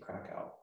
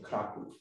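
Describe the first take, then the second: First: The name is said the American way. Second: The name is said the Polish way.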